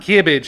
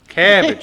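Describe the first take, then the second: First: The first vowel sounds like the i in kid. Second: The first vowel sounds like the a in cab. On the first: The speaker calls it wrong. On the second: The speaker calls it right.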